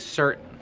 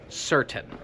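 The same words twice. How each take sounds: First: The word is said in a relaxed, reduced way. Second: The word is said with careful, full articulation. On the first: "tak bardziej naturalnie się mówi certain" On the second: "Jak chcesz to poprawnie wymówić, to mówisz certain"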